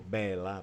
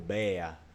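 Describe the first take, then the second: First: The L sound is pronounced. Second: The L sound is dropped.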